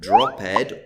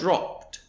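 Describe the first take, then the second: First: The ending is a separate extra syllable. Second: The ending joins the word as one syllable. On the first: The speaker calls it wrong. "this isn't pronounced as ed, it's not dropped" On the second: The speaker calls it right. "it's just a d that's put on the end"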